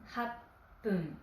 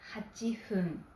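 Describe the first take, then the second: First: The middle has a doubled, held 'p'. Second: The middle has a 'chi' syllable and 'f'. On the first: "ou happun" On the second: "on peut dire hachifun"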